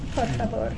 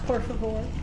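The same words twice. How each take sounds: First: It is said with a Spanish accent. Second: It is said with an English accent.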